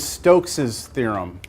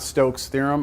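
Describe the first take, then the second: First: The name is said with an extra 'ez' syllable. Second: The name is said as a single syllable. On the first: The speaker calls it right. "the way you say this is Stokes's theorem" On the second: The speaker calls it wrong. "not Stokes' theorem"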